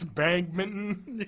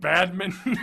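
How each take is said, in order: First: "bagminton" with a g replacing the d; Ricky's mispronunciation. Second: Said in the usual way. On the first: Retold or imitated. Host quoting Ricky's wrong words, "bagminton" said with "bag" up front. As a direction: stretch "bagminton" slowly, "bag" as first syllable. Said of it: "He just doesn't pronounce words correctly". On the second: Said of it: "instead of badminton".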